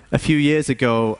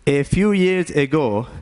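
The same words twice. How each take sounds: First: Said in the usual way. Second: Put-on Indian-accented English, lifted a little; put-on Indian accent, higher than usual. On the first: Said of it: "He talks like this now". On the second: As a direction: begin the story in an Indian accent. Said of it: "have an Indian accent anymore".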